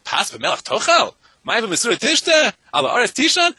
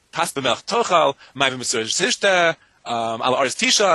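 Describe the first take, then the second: First: Slow, pitch climbing much higher and louder on each phrase; read as questions. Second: Slow, each phrase falling like a plain statement; read as statements. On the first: Scene: rosh yeshiva rereading the Mishnah, rising incredulous questions. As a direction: ask each line as a disbelieving question, rising higher each time. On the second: Scene: layman quoting the Mishnah to the rabbi, slow falling statements. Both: Shown as a demonstration. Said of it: "with a period or with a question mark".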